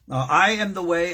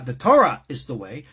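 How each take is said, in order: First: Said in the usual way. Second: Torah punched louder, as the swapped-in word; stress on Torah. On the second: Shown as a demonstration. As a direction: lean hard on "Torah" in "the Torah is the way". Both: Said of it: "So let's rephrase that".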